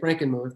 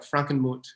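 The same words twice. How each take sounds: First: The name is said with an American pronunciation. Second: The name is said with a German pronunciation. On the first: This is how the locals say it. "we say Frankenmuth because we just uh, Americanize it" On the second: This is the original form of the name. "in the classic German, it'd be more like Frankenmuth"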